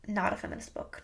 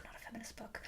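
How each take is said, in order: First: Low, hushed mutter; muttering to oneself. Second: Barely audible whisper; whispered to oneself. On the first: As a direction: say it under your breath, finding your thread. Muttering to herself, finding thread. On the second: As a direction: let it vanish into a whispered reminder. Repeats it under her breath. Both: Real, not acted.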